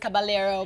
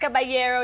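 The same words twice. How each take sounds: First: The name is pronounced the Italian way. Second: The name is pronounced the Spanish way. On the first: The bearer of the name is Italian. "Italian is Caballero" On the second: The bearer of the name is Spanish. "if you're Spanish, it's Caballero"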